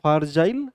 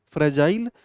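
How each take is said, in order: First: "फारजाइल" said as far plus jile; memory-aid pronunciation. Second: Said in the usual way. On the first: Shown as a demonstration. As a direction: open the first syllable of "फारजाइल" into a full "far". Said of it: "भाई मैं फार तो नहीं". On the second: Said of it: "मैं फ्रेजाइल यानी दूर तो नहीं".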